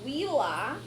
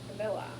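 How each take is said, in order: First: The word begins with a W sound. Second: The word begins with a V sound. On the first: "Not to be confused with wheela, which is farmhouse" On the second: "Think of a villa"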